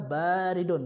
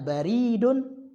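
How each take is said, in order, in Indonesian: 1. Vokal pertama panjang. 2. Vokal pertama pendek. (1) "ba-nya dipanjang" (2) "Kalau bacanya baridun berarti dia pos"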